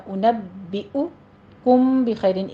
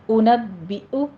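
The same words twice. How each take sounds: First: اُنَبِّئُكُم slow, with a glottal catch and a clear a then u; correct pronunciation. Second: اُنَبِّئُ said with a rising end, the wrong way; wrong pronunciation. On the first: Teacher shows the correct اُنَبِّئُكُم, slow recitation. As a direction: recite اُنَبِّئُكُم slowly, both hamza sounds clear. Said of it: "دو آوازیں ہیں حمزہ کی ہی". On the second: Teacher shows the wrong way to say اُنَبِّئُ. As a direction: say اُنَبِّئُ with a clipped, rising glottal stop. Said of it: "اُنَبِّئُ نہیں کہنا". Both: Shown as a demonstration.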